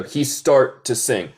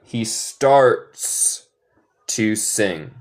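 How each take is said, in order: First: "He start to sing." read as the wrong version; wrong model "He start to sing."; wrong example. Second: "He starts to sing." with a stressed "starts"; correct with S. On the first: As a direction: offer "He start to sing." as the mistake. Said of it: "Esto es incorrecto". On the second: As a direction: lean on "starts" and its final "s". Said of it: "Hay que agregar S". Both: Shown as a demonstration.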